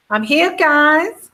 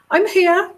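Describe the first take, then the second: First: Slow, high mock American accent; jokey American accent, pitched up. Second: Put-on high-pitched announcing of an arrival, own accent; mock grand entrance, pitched way up; high, put-on "look at me" voice; Meghan. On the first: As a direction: put on a hammed-up American drawl, half laughing. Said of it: "American accent". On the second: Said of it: "not even with that accent".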